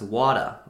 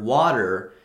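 First: British accent. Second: Said in the usual way. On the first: Shown as a demonstration. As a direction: say "wada" the British way, dropping the final R. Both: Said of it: "pronounced by a British person as".

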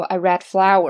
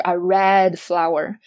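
First: Said in the usual way. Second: "red" pushed up, rising and slow; wrong stress on red. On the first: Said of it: "通常不会这样说". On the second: Shown as a demonstration. Teacher showing the wrong way, stress on red. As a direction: stress "red" slowly with a rise. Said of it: "而不是".

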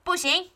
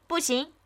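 First: Father's high-pitched, emphatic no; firmer, louder refusal. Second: Mother's higher-pitched, contained no; firm refusal. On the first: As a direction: refuse with extra force. (爸爸更大声地拒绝) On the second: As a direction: refuse firmly without raising the volume. (妈妈坚决地拒绝) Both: A narrator's reading. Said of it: "爸爸说得更大声".

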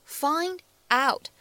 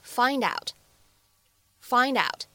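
First: Said in the usual way. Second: "find out" run together as one word; linked pronunciation. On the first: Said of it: "放在一起呢，连读一下". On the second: Shown as a demonstration. Teacher showing students liaison, "find out" linked. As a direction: carry the d of "find" into "out". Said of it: "连读一下".

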